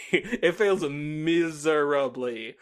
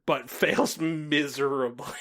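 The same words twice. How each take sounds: First: "fails miserably" dragged out very slowly, each word weighted; drawn-out deadpan repeat of "fails miserably"; slow emphatic repeat. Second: Said in the usual way. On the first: Real, not acted. Repeats the verdict slower.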